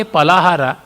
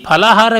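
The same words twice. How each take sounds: First: Palahara with a plain unaspirated P; no puff of air on the P of Palahara; unaspirated first sound. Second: Palahara opened with a breathy aspirated PH; aspirated first sound. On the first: Lecturer showing the mispronunciation, Palahara with unaspirated P. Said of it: "the meaning is entirely changed". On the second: Lecturer showing the proper word for students, Palahara with aspirated P. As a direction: puff air on the P of Palahara. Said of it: "Phala means fruit". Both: Shown as a demonstration.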